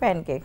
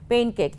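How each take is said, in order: First: The first vowel sounds like 'pan'. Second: The first vowel sounds like 'pain'. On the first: This is what everyone commonly says. "সবাই কিন্তু এটাকে বলে প্যানকেক" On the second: This is what it is actually called. "আসলে তো এটাকে বলা হয় পেইন cake"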